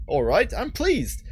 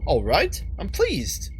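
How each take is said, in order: First: Slow, higher-pitched British retake; second go at a British accent, drawn out; put-on British voice, unhurried and lifted. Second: Put-on first try at a British accent; lightly put-on British character voice. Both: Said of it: "not doing the right British accent".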